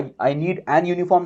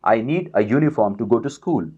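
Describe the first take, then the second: First: "an uniform" said slowly as the wrong version; a slow demo of the incorrect "an uniform"; wrong form shown. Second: "a uniform" said slowly as the right version, with "a" sounded "uh"; a slow demo of the correct "a uniform"; correct form shown. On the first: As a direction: deliberately say "an" before "uniform", the mistake. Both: Shown as a demonstration. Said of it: "नहीं आएंगे यहाँ पर".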